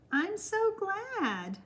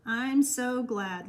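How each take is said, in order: First: Much higher and very slow, drawn out with feeling; pitched-up, lingering I'm so glad; heartfelt gladness. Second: Said in the usual way. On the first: Real, not acted. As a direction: stretch "so" high and long, touched.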